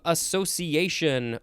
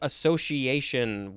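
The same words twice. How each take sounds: First: The middle consonant is an s sound. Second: The middle consonant is an sh sound.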